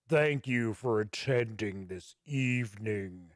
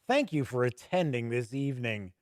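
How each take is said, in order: First: It is said in a deep, ominous voice. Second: It is read in an ordinary speaking voice.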